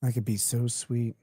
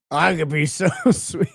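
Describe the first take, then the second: First: Quiet, dry mock of the line; soft mocking echo. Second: Mock the line while laughing; laughing mock quote. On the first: Repeating the guy's text, quiet and mocking. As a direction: murmur his words back with disdain. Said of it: "quotes the line again". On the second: Reacting to the guy's line, laughing while mocking it. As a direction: giggle through his line, teasing. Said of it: "quotes the line".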